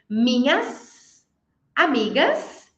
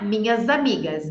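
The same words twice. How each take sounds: First: The final sound of minhas is an s. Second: The final sound of minhas is a z.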